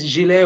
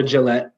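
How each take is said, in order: First: "Gillet" said zhee-LAY, silent T; French pronunciation. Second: "Gillette" said juh-LET, T sounded; anglicized pronunciation. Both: Shown as a demonstration. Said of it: "it's Gillet or Gillette".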